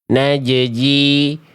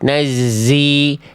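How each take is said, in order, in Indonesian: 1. Bunyi z berubah jadi bunyi j. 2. Bunyi j berubah jadi bunyi z. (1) "zai-nya ke bawah jadi huruf jim" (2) "jimnya yang ke bawah jadi huruf zai"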